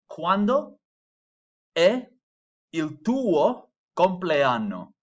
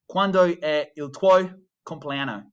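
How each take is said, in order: First: Every letter is clearly and fully pronounced. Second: Some letters are dropped or slurred together. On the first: The speaker calls it right. "Notice I'm pronouncing every letter in that word" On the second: The speaker calls it wrong. "a bad way of saying that"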